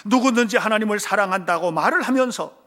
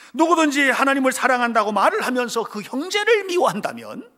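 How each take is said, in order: First: Said in the usual way. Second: Higher, louder repeat rising on 형제를; stronger repeat. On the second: Shown as a demonstration. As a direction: lean into 형제를 with a rise. (형제를 높여 강조) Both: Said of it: "repeated with emphasis".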